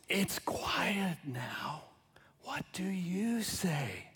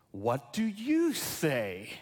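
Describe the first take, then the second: First: Slow, breathy storybook whisper; hushed whisper. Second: "What do you say?" drawn out slowly, voiced, asking each listener; slow earnest question. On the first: Pretend. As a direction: whisper it like tucking a child in. Book ending read as hush. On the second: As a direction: lay the question gently on the room, word by word. Jesus' question posed to congregation.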